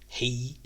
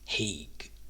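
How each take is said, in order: First: The name ends in a vowel, no g sound. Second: The name ends with a hard g sound. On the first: "So is it Hay or is it Haig?" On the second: "So is it Hay or is it Haig?"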